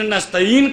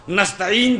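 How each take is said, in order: First: نستعین with the ع dropped to a plain vowel; mispronounced ain. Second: نستعین with a throaty Arabic ع; correct ain. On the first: Retold or imitated. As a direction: say نستعین with no throat sound on the ain. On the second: Shown as a demonstration. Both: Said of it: "جو عین سے ہے".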